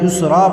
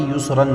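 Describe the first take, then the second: First: The word ends on a long a vowel. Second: The word ends with an n sound. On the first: The speaker calls it right. "युसरा पढ़ेंगे" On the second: The speaker calls it wrong. "युसरन नहीं"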